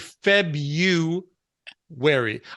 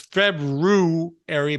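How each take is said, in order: First: The first r sound is dropped. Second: The first r sound is pronounced. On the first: This is how most people actually say it. "most of us, I'm going to say, we say Febu wary" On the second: This is how it is supposed to be said. "My mother says I'm wrong. It's February"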